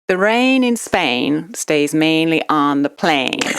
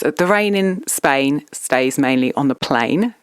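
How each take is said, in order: First: It is said in an imitated American accent. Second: It is said in the speaker's everyday accent. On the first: "now in American" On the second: "I'll do it in my normal voice"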